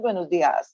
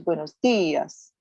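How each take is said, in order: First: The stress does not fall on the 'i'. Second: The stress falls on the 'i' of dias. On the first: The speaker calls it wrong. "not buenos dias" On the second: The speaker calls it right. "there's an accent over the I, the pronunciation is buenos dias"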